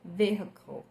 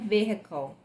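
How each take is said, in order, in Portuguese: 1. O som do H é claramente pronunciado. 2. O som do H é claramente pronunciado.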